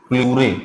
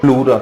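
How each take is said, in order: First: The word ends with an 'ay' sound. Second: The word ends with an 'ah' sound. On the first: This is the English form of the term. "English में प्लूरे" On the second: This is the Hindi form of the term. "Hindi में प्लूरा कहते हैं"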